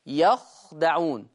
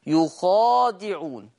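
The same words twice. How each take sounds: First: يخدعون slowly with open ya and silent kha; يخدعون said slowly, ya open, kha unvoweled, dal open; Hafs reading. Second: يخادعون slowly with u on ya and long a after kha; Warsh reading. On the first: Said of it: "يقرأ حفص بفتح الياء وسكون الخاء وفتح الدال". (يخدعون بفتح الياء وسكون الخاء) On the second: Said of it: "ورش يقرأ بضم الياء وفتح الخاء وألف بعدها". (يخادعون بضم الياء وألف بعد الخاء) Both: Shown as a demonstration.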